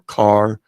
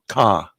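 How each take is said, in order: First: The final R sound is clearly pronounced. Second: The final R sound is dropped entirely. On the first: "instead of saying bar or car or far" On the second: "it comes out ka"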